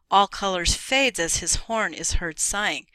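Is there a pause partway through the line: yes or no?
no. It is read through without a pause.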